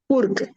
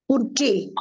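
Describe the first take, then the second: First: The stress is on the first syllable. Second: The stress is on the last syllable. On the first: It means because. "the stress is always on the first syllable" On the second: It asks why. "There is an accent on the last E to say why"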